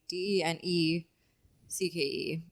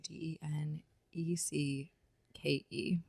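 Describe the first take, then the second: First: The letters are grouped as four, then three. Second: The letters are grouped as three, two, two. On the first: This is how other people spell it out. "They say" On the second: This is how the name's owner spells it out. "and I say"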